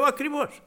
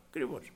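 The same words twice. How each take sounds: First: Sharply higher, insistent "Ακριβώς"; high-pitched "Ακριβώς" as a retort; emphatic exclamation. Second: "ακριβώς" dropped much softer, a murmured repeat; soft afterthought "ακριβώς"; quiet echo. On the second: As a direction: let "ακριβώς" fall away softly. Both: Retold or imitated. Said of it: "Λέω".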